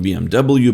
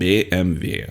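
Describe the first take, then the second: First: The letters are said with English letter names. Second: The letters are said with German letter names. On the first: The speaker calls it wrong. "not B M W" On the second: The speaker calls it right. "in German it's pronounced as ... but B M W"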